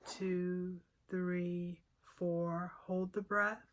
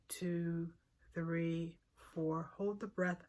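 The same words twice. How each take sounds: The two takes are said the same way.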